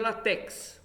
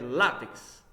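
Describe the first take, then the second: First: The stress is on the final syllable. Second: The stress is on the next-to-last syllable. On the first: The speaker calls it wrong. "Não é oxítono" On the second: The speaker calls it right. "Ela é paroxítono"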